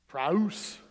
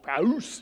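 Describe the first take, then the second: First: The word is said at normal volume. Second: The word is said very loudly.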